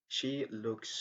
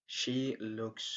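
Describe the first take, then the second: No difference in how they are said.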